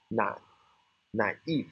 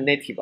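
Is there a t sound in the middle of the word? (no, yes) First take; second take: no; yes. First: The word has no t sound in the middle. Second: The word has a t sound in the middle. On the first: The speaker calls it right. "这个没有t 啊" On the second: The speaker calls it wrong. "千万不要念的native 啊"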